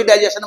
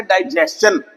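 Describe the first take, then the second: First: डाइजेशन said as "dai-je-shun", with a plain sh; common pronunciation. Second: डाइजेशन said as "dai-JES-chun", with a ch; correct pronunciation. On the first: Teacher copying what everyone says, डाइजेशन pronounced "dai-je-shun". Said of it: "सभी डाइजेशन बोलते हैं". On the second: Teacher showing students the proper form, डाइजेशन pronounced "dai-jes-chun". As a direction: say डाइजेशन with "s-ch" before the last vowel. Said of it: "ये सही इसकी pronunciation है". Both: Shown as a demonstration.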